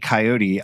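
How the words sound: It uses the common American pronunciation. This is how most people say it. "Most people say coyote"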